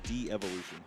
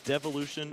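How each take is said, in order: First: It is said as de-evolution, with an extra vowel. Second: It is said as devolution, without an extra vowel. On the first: "or de-evolution?" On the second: "are you devolution"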